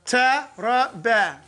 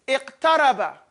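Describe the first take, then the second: First: "Iqtaraba" repeated slowly, drawn out. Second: Said in the usual way. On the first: Shown as a demonstration. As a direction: say "Iqtaraba" again, slow and deliberate.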